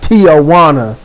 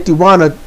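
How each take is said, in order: First: The name is said with an extra added sound. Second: The name is said without any added sound. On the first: The speaker calls it wrong. "not Tijuana. You don't add letters where they ain't" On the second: The speaker calls it right. "I say Tijuana decently"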